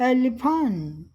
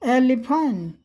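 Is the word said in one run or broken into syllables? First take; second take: broken into syllables; broken into syllables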